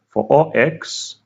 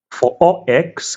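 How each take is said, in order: First: Said in the usual way. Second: "for all" drawn out slow and pitched high; stress on for all. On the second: Shown as a demonstration. Lecturer to students, stressing "for all" slowly. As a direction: lean hard and slow on "for all". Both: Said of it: "I laid emphasis on the word for all".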